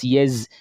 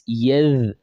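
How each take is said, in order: First: The consonant is said as a z sound. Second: The consonant is said as a th sound. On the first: The speaker calls it wrong. "They pronounce thal as zai" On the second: The speaker calls it right. "that is thal, not zai"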